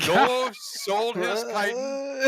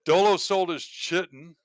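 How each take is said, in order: First: Chitin said slowly as KY-tin, hard K; corrected pronunciation. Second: Chitin spoken as chih-tin, ch as in chair; wrong pronunciation. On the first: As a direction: chitin carefully as KAI-tin, hard k and long i. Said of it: "There he goes". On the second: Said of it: "yeah, chitin". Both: Shown as a demonstration.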